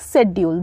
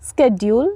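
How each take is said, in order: First: The word begins with an 'sh' sound. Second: The word begins with an 'sk' sound. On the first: "दोनों pronounce करेंगे" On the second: "दोनों pronounce करेंगे"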